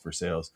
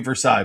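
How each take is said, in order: First: It is said with a Pittsburgh pronunciation. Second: It is said with the standard pronunciation.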